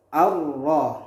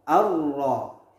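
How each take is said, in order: The two takes are said the same way.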